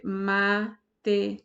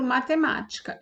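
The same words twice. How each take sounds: First: "matemática" broken into ma, te, má, ti, ca with clear pauses; teacher sounding out "matemática" in five detached syllables. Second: Said in the usual way. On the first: Shown as a demonstration. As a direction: divide "matemática" slowly, one separate syllable at a time. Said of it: "Eu vou dividir". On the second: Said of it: "Eu vou dividir matemática".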